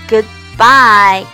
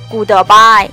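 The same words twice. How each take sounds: First: The d of good is held silently. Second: The d of good is fully released. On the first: The speaker calls it right. "good 的的可以站一拍不发音，直接滑向bye" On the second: The speaker calls it wrong. "一定不要读成goodbye，是不是很难听啊？"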